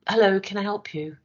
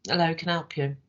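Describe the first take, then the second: First: Bright, welcoming "Hello, can I help you?"; friendly greeting. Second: Bored greeting. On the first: Trainer contrasting a welcoming customer greeting. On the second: Trainer contrasting an unwelcoming customer greeting. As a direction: sound like the customer is a bother. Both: Shown as a demonstration. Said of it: "Same words, different tone".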